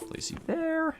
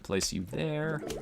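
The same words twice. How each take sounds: First: It is said in a much higher voice. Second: It is said in a normal voice.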